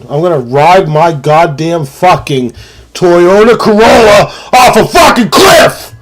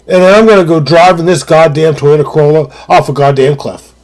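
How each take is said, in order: First: Fired-up rant. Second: Said in the usual way. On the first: Real, not acted. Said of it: "I get real fired up". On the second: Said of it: "what I meant to say was".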